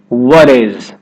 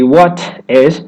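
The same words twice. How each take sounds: First: The T is a quick D-like flap. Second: The T is a crisp, released T. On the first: The speaker calls it right. "you're going to put in that D sound or a flap T" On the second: The speaker calls it wrong. "Instead of the two T"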